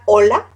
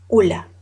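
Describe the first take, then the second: First: The first vowel is an o sound. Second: The first vowel is a u sound. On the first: "él puede pronunciar hola. No" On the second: "¿qué va a decir? Ula"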